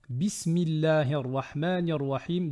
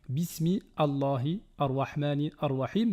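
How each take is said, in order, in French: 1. Les mots s'enchaînent sans coup de glotte. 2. Chaque mot commence séparément, avec un coup de glotte. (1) "mais plutôt" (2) "On ne va pas dire"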